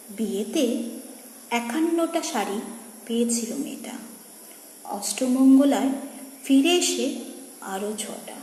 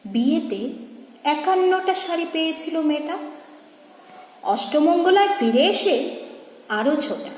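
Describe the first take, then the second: First: Soft refrain, fading away at the end; hushed poem recitation. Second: Lilting verse, rising then dropping at phrase ends; poem recitation. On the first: Reciter closing on the widow's saris, hushed recitation. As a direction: let the verse sink almost to a whisper. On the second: Reciter telling of a bride's many saris, lilting recitation. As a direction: recite the refrain in full voice. First take of refrain. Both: Acted.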